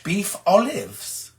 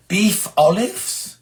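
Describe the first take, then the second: First: Lightly put-on posh, slow and falling at the end; mock posh. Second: BEEF OLIVES drawn out slowly, rising at the end; puzzled query. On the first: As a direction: savour it slowly, a hint of poshness. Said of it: "Ooh, that sounds posh". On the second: Real, not acted. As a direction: ask "Beef olives?" slowly, with a questioning lift. Queries a dish read from chat.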